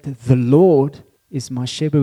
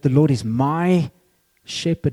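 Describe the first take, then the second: First: The stress falls on the word Lord. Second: The stress falls on the word my. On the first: "we can put it on three places" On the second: "It's deeply personal"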